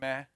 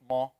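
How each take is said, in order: First: The ma is light, with the tongue relaxed. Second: The ma is heavy, with the tongue raised. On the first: The speaker calls it right. "it should be relaxed down" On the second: The speaker calls it wrong. "not ma"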